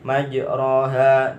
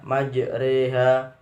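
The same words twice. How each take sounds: First: Said in the usual way. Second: "majreha" with the ro tilted to "re"; imalah. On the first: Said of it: "dibaca majreha". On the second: Shown as a demonstration. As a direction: bend the long a toward e in "majreha". (baca "majreha", bunyi ro dimiringkan menjadi re)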